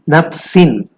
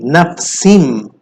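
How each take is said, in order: First: The word ends with an n sound. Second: The word ends with an m sound. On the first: The speaker calls it wrong. "So this is nafsin. Instead of saying nafsin" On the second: The speaker calls it right. "we need to change the sound of the nun sakin to mim"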